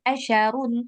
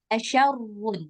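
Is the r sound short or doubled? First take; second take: short; doubled. First: The r sound is short and single. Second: The r sound is doubled and lengthened. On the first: The speaker calls it wrong. "Bukan asyarun" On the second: The speaker calls it right. "Rohnya bertasydid"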